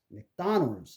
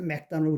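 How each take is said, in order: First: The second syllable is stressed, the others weak. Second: All syllables are given equal weight. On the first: The speaker calls it right. "약, 강약" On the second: The speaker calls it wrong. "그 사람들 뭔지 몰라요"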